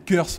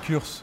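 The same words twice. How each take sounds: First: The word has an English-style pronunciation. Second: The word has a French-style pronunciation. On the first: The speaker calls it right. "quand on parle bien anglais c'est Curse" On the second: The speaker calls it wrong. "pas Curse"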